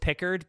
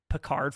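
First: The name is said the plain English way. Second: The name is said the French way. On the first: The speaker calls it right. "I know it's Pickard" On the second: The speaker calls it wrong. "I have been saying Picard because I've been thinking of Picard from Star Trek"

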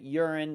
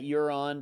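First: The name is said in the local pronunciation. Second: The name is said in an outsider's pronunciation. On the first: This is how locals say it. "that's how they can pronounce it in South Dakota" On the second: This is how people elsewhere might say it. "some people might pronounce that Huron"

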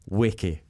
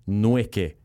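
First: The name starts without any N sound. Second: The name starts with an audible N sound. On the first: The speaker calls it right. "The N is silent" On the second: The speaker calls it wrong. "people were calling you Nweke"

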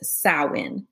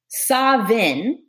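First: It has the Irish Gaelic pronunciation. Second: It has the Scottish Gaelic pronunciation. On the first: "Irish Gaelic says Samhain" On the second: "the ancient Scottish Gaelic version of this"

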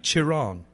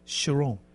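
First: The name is pronounced with Italian-style sounds. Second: The name is pronounced with French-style sounds. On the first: "if it was Italian, it'd be Chiron" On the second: "it's French"

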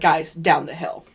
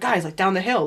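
First: It is said in a firm, commanding tone. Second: It is said in a casual, remarking tone. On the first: Someone telling them where to go. "Whereas he's like" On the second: Someone casually pointing something out. "It wasn't like"

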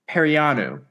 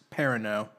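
First: The name does not end in an 'oh' sound. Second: The name ends in an 'oh' sound. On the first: The speaker calls it wrong. "I know you said it wrong" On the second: The speaker calls it right. "It's pronounced Perino"

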